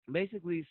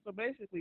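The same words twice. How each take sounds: First: Said in the usual way. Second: Talking through a mouthful of snack; mouth full. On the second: Real, not acted. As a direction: speak around a bite of food. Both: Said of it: "I got food in my mouth from snacking".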